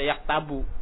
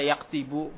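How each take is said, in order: First: The vowel after the t is a. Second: The vowel after the t is i. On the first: "nggak boleh dibaca yaktabu" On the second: "Nggak boleh dibaca yaktibu"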